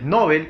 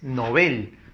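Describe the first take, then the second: First: The stress is on the first syllable. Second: The stress is on the last syllable. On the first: It is a surname. The speaker calls it wrong. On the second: It means a beginner. The speaker calls it right.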